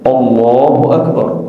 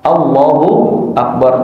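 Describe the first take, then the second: First: The opening vowel is thick, sounding like 'o'. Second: The opening vowel is thin, sounding like 'a'. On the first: The speaker calls it wrong. "hamzahnya tebel" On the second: The speaker calls it right. "harusnya apa? A"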